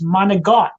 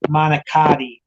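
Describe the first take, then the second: First: It is said the Sicilian way. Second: It is said the common American way. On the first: The speaker calls it right. "being Sicilian, we say monogon" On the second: The speaker calls it wrong. "I hear too many people say manicotti"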